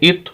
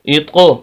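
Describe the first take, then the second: First: The final consonant stops abruptly without an echo. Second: The final consonant is released with a bouncing echo. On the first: "बगैर कलकले के" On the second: "कलकला करके पढ़े"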